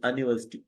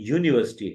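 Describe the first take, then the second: First: The word begins with a plain vowel sound. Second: The word begins with a 'yoo' sound. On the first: The speaker calls it wrong. "नहीं है" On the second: The speaker calls it right. "सही, यूनिवर्सिटी है"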